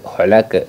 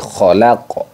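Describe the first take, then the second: First: The final consonant bounces with an e-like sound. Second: The final consonant bounces with an o-like sound. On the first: The speaker calls it wrong. "bukan seperti itu" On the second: The speaker calls it right. "khalaqo bukan khalaqe, tapi khalaqo"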